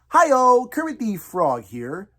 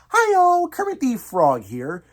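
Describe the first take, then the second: First: It is said in a normal speaking register. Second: It starts high in a falsetto register. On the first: "using your regular natural tone of your voice" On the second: "you need to hit a bit of that falsetto up there"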